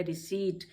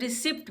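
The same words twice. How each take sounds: First: रिसीट with long ee straight into T; silent P. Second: रिसिप्ट with short i and sounded P; common mispronunciation. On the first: Teacher gives learners the correct word, रिसीट with silent P. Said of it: "ये word है रिसीट". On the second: Teacher imitates people misreading it, रिसिप्ट with P. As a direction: let the P pop before T in रिसिप्ट. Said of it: "लोग इसको गलत पढ़ते हैं". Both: Shown as a demonstration.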